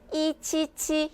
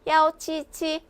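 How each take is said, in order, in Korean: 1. 첫 번째 숫자는 yi로 발음합니다. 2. 첫 번째 숫자는 yao로 발음합니다. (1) "힘들죠? 힘들다라는 거예요. 헷갈린다라는 거죠" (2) "괜찮죠? 입도 편해요"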